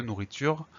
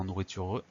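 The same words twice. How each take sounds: First: Said in the usual way. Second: "nourriture" with an added "euh" at the end; final E pronounced. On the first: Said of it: "qu'on n'entend pas forcément". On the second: Shown as a demonstration. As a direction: sound the usually silent last E of "nourriture". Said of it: "On prononce pas forcément nourriture E". (« nourriture » avec le e final prononcé, nou-rri-tu-reu)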